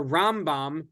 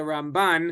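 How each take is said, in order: First: Rambam said with the first syllable Ram stressed; Rambam, accent on Ram, not on bam. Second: Ramban said with the last syllable Ban stressed; Ramban, accent on Ban, not on Ram. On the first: Teacher telling students how to say Rambam, stressing RAM. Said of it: "it's gonna be accent on Ram". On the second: Teacher telling students how to say Ramban, stressing BAN. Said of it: "it's gonna be accent on Ban". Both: Shown as a demonstration.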